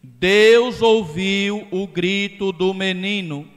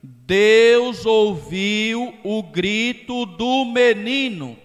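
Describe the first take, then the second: First: "Deus ouviu o grito do menino" at normal pace, louder, "Deus" stressed and falling; emphatic quote. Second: "Deus ouviu o grito do menino" said slowly, louder and higher, "Deus" lifted; slow emphatic quote. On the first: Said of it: "E o versículo seguinte". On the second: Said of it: "Diz a leitura". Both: Shown as a demonstration.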